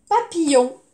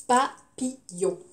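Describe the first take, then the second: First: Said in the usual way. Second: "Papillon" cut into pa, pi, yon; syllable by syllable. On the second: Shown as a demonstration. Teacher splits a word for pupils, syllable by syllable. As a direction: slowly separate pa - pi - yon.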